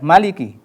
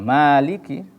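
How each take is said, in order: First: The first vowel is cut short. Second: The first vowel is held long. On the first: The speaker calls it wrong. "Jangan dibaca Maliki" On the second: The speaker calls it right. "perhatikan maknya harus jelas pengucapan matobi'nya ya"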